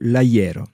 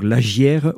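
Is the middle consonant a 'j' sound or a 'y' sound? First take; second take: y sound; j sound. First: The middle consonant is a 'y' sound. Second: The middle consonant is a 'j' sound. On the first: This is how it is said in other places. "ne jougeillent pas, donc font ye" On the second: This is how it is said in some places. "qui font jeu pour le, cette consonne"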